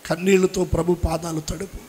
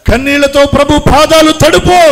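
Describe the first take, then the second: First: Softer, hushed prayerful plea. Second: Louder and higher, crying out the plea; fervent cry. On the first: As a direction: lay it down gently, almost to yourself. (మృదువుగా, నెమ్మదిగా చేసే వేడుకోలు) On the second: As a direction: lift it into a full preaching cry. (బిగ్గరగా, ఉద్వేగంతో కేకలా చెప్పే వేడుకోలు) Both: Acted. Preacher repeats plea softly then loudly.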